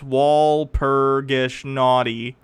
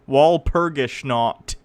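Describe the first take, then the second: First: The last part sounds like 'naughty'. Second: The last part sounds like 'not'. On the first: The speaker calls it wrong. "Say it right if you're gonna critique it" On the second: The speaker calls it right. "Say it right"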